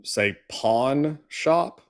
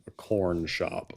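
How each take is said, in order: First: Pawn shop said slowly with a clear R, pahrn shop; slow, careful pawn shop with the R sounded; pronounce the R. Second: Corn shop said slowly; slow corn shop with a rhotic R; the wrong way. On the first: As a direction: stretch out pawn shop, rolling an American R into pawn. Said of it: "one easy way to do it is". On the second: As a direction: pawn shop said so it sounds like corn shop. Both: Shown as a demonstration.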